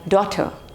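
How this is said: It has a British accent with a silent R. "But in British, generally R is silent, like daughter"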